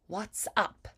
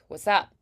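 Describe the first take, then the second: First: Warm and rounded, with crisp final consonants. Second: Casual and loose, with barely enunciated sounds. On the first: It sounds classy and old-fashioned. "transatlantic sound, more warmth, more rounded" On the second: It sounds like street language. "the normal casual way like what's up, ... people don't really enunciate at all"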